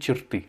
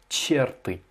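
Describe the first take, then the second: First: The stress is on the last syllable. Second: The stress is on the first syllable. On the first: The speaker calls it right. "l'accentuation sur la dernière syllabe" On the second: The speaker calls it wrong. "Toi, tu as dit черты"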